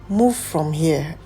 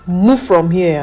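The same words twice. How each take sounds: First: It is said in a gentle, inoffensive tone. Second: It is said in a harsh, rude tone. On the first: The request is polite and not insulting. The speaker calls it right. "I wouldn't see it as an insult" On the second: The request comes across as an insult. The speaker calls it wrong. "I'll be like, what? Who are you talking to?"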